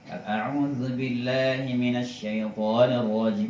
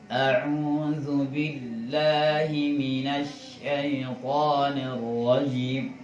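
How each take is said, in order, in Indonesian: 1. Frasa itu dibaca pelan. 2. Frasa itu dibaca lebih pelan lagi. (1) "itu udah pelan" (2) "pelan lagi"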